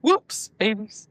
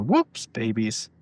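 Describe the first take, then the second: First: "Whoops babies" drawn out slowly, imitating; mimicking odd delivery. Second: Lightly marked "whoops babies"; oddly said "whoops babies". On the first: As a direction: stretch "Whoops" as you mock the phrasing. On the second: Real, not acted. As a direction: say "whoops babies" as an odd set phrase. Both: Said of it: "Why do you say it like that?".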